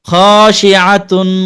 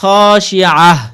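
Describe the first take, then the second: First: The word ends in a nasal n sound. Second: The word ends in a clear h sound. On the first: "প্রথম খসিয়াতুন একটু গুন্না" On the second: "পরে হাঁটা স্পষ্ট"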